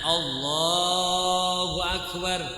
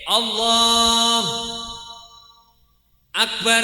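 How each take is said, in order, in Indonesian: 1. Kedua kata menyambung tanpa jeda. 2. Ada jeda di antara kedua kata. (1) "Harus berurutan" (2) "ora kena kayak gini. ... enggak boleh"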